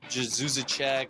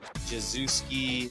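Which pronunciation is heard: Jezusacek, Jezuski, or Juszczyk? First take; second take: Jezusacek; Jezuski. First: The name is said as Jezusacek. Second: The name is said as Jezuski. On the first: "I've literally heard everything under the sun" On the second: "I've literally heard everything under the sun"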